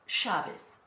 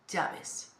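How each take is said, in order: First: The ll is said with a sh sound. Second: The ll is said without a sh sound. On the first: This is how it is said in Argentina or Uruguay. "in other countries, for example, Argentina or Uruguay, they pronounce it like sha" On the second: This is how it is said in Mexico or Spain. "in Mexico or in Spain, for example, we say, in general, llaves"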